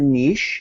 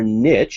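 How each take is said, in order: First: It is said the Canadian way. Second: It is said the American way.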